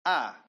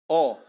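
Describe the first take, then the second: First: The vowel is a full, open 'a'. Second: The vowel is rounded toward 'o'. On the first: The speaker calls it right. "Tapi mulut ini agak dilebarkan" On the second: The speaker calls it wrong. "Tidak boleh A ke O-oan"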